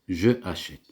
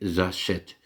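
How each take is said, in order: First: The vowel of je is fully pronounced separately. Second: The vowel of je is dropped and linked. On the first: The speaker calls it wrong. "Ça, c'est faux" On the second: The speaker calls it right. "Regardez, j'achète"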